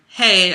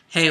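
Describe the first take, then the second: First: It is said in a higher-pitched voice. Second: It is said in a lower-pitched voice. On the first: "hey up here" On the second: "my voice is a little lower"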